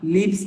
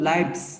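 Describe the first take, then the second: First: The vowel is short, as in 'it'. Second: The vowel is long, as in 'eye'. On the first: This form is the verb. The speaker calls it wrong. "আওয়ার লিভস না" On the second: This form is the plural of life. The speaker calls it right. "এটা হলো লাইভস"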